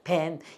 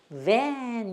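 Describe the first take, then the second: First: The word starts with a plain b sound. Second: The word starts with a buzzing v sound. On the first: "우리는 밴이라 그러죠" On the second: "v 이 소리가 나는 거예요"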